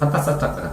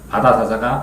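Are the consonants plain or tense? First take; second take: tense; plain. First: The consonants are tense and hard. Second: The consonants are soft and plain.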